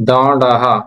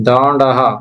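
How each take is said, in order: The two takes are said the same way.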